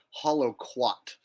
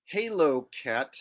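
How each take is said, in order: First: Halo Cat said as Hollow Quat, hollow and quat; joke mispronunciation. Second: Said in the usual way. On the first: Shown as a demonstration. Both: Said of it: "I used to call him Hollow Quat".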